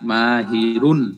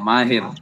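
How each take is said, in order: First: The word ends with a final un syllable. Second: The word ends without a final un syllable.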